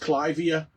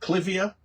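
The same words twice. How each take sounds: First: The first syllable rhymes with five. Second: The first syllable rhymes with give. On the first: The speaker calls it right. "this is Clivia miniata" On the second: The speaker calls it wrong. "you might pronounce it Clivia, but Mister Clive might be upset"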